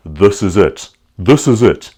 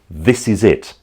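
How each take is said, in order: First: Guttural South African "This is it"; South African accent. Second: Light British accent on "This is it". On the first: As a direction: push "This is it" into a throaty South African sound. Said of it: "It was a more guttural sound". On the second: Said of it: "they might say". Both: Shown as a demonstration.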